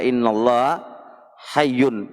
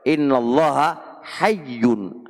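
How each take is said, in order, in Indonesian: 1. Kata terakhir memiliki dua suku kata, hay-yun. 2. Kata terakhir memiliki tiga suku kata, ha-yiy-yun. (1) "Sebagian orang baca innallaha hayyun, itu keliru" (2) "kalau dikatakan innallaha hayyun ... artinya Allah itu maha malu"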